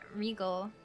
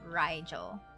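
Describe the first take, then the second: First: The name does not rhyme with Nigel. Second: The name rhymes with Nigel. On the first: The speaker calls it wrong. "Am I saying it wrong?" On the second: The speaker calls it right. "So it's like Nigel but R"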